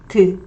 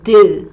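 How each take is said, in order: First: The d sound is light and weakly voiced. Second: The d sound is heavy and strongly voiced. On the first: "Korean D sound is lighter. It vibrates less" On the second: "English D sound vibrates more"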